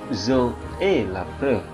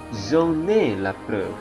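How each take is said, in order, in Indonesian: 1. Kata-katanya diucapkan terpisah tanpa liaison. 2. Kata-katanya disambung dengan liaison.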